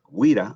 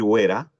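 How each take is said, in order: First: The first vowel is a close i sound. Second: The first vowel is an open e sound. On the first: "ahí no hay ningún problema" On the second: "por un error puede decir Wera"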